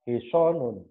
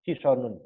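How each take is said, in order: First: The middle vowel is lengthened and stressed. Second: The middle vowel is short and unstressed. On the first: The word is written with the long letter alif. The speaker calls it right. "kuda akan dibaca hisonun" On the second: The word is written without the long letter alif. The speaker calls it wrong. "bukan hisonun ... berarti shotnya tidak ada alifnya"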